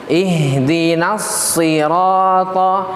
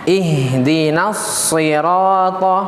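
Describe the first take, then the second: No difference in how they are said.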